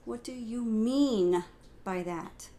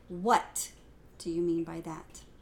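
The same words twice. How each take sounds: First: The emphasis falls on the word mean. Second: The emphasis falls on the word what.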